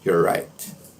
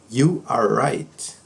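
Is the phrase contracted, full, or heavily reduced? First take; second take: contracted; full. First: The first two words merge into one contraction. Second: Each word is pronounced fully and separately.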